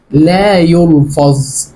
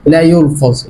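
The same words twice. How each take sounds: First: لا يلفظ drawn out very slowly, weight on لا; slow emphatic. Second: Said in the usual way. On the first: Shown as a demonstration. Teacher drilling students on silent B, very slow and stressed. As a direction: spell out لا يلفظ slowly for the class, hitting لا. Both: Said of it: "يعني إيه؟".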